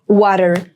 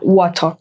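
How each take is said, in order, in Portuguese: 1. É dita com sotaque americano, R forte. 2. É dita com sotaque britânico, sem R. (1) "o sotaque que é americano" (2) "Eles falam lá, water. Tipo, não tem R puxado"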